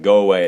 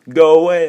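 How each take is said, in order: First: It is said at a normal, quiet volume. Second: It is said loudly, almost shouted.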